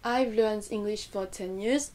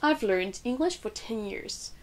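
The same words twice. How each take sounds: First: All words are said evenly with no stress. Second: Learned, English and years stand out clearly. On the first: The speaker calls it wrong. "à la française ... c'est plat" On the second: The speaker calls it right. "le learned, le mot English, le mot years qui vont ressortir"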